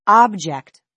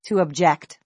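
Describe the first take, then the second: First: "object" stressed on the first syllable, AHB-ject; "object" as OB-ject, ending falling; noun stress on object. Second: "object" stressed on the second syllable, ub-JECT; verb stress on object. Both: Shown as a demonstration.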